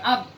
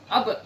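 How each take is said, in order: First: The final consonant is swallowed without echo. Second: The final consonant ends with a slight echo. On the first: The speaker calls it wrong. "Jangan seperti ditelan huruf ba-nya" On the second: The speaker calls it right. "ada pantulannya sedikit"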